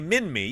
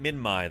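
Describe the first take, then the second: First: The name is said the non-local common way. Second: The name is said the Australian local way. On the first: This is the pronunciation used outside the local area. "some say Minmi" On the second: This is the pronunciation the locals use. "that's what the locals call it"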